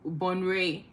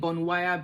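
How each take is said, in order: First: The name is said like 'bon-ray'. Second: The name is said like 'bon-wai-ya'. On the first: The speaker calls it right. "it's bon bonray essentially" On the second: The speaker calls it wrong. "I was just pronouncing it how it was spelled"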